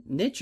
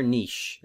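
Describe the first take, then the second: First: "niche" rhyming with rich; niche as "nitch". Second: "niche" as "neesh"; French-style niche. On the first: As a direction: say "niche" with a short i and a tch ending. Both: Shown as a demonstration. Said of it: "we can't use French pronunciations".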